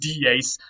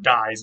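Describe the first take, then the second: First: It is pronounced with the Latin pronunciation. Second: It is pronounced like an ordinary English word. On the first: The speaker calls it right. "It was pronounced dies" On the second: The speaker calls it wrong. "It looks like the English word dies, but that's not what it is, and that's not how it's pronounced"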